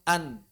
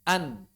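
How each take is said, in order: Both takes have the same delivery.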